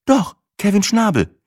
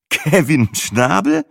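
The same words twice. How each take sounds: First: Hoch und lauter, ganz selbstverständlich; Sina, beiläufig. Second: Langsam, höher, fragend ansteigend Kevin Schnabel; ungläubig. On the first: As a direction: Kevin Schnabel einfach nebenbei hinwerfen. Sina names guest. (Sina nennt den Namen Kevin Schnabel ganz selbstverständlich) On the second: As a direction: Kevin Schnabel ungläubig in die Länge ziehen. Matze disbelieving repeat. (Matze wiederholt den Namen Kevin Schnabel ungläubig) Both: A narrator's reading.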